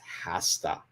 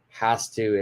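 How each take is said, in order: First: The words are joined into one reduced word. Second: The words are said as two separate full words.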